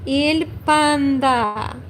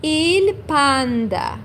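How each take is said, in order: First: "Il panda" repeated slowly, EEL PAN-da; slow teacher repeat; Italian il panda. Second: "il panda" slow, EEL PAN-da; slow careful Italian model. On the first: Teacher repeats the word slowly so students copy it. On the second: Teacher says the Italian word slowly for learners. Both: Shown as a demonstration. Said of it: "I say".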